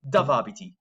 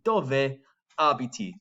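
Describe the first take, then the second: First: The final E of dove is dropped. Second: The final E of dove is pronounced. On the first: The speaker calls it wrong. "A way to pronounce this that wouldn't get you the best mark" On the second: The speaker calls it right. "I'm pronouncing the E in dove abiti"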